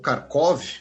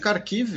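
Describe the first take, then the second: First: The name ends with an 'ov' sound. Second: The name ends with an 'iv' sound.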